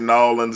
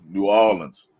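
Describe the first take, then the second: First: The name is squeezed into one blended word. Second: The name is said as two separate words. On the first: The speaker calls it wrong. "we don't say Nolans either" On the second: The speaker calls it right. "you got to say New, then Orleans"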